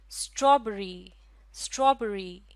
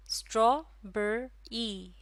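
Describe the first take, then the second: First: Said in the usual way. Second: strawberry in three slow beats, straw, बे, री; syllable by syllable. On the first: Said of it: "कितने syllable हैं". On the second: Shown as a demonstration. Teacher asking how many syllables, word slow and separated. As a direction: break strawberry apart with clear gaps. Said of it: "इसमें है तीन syllable".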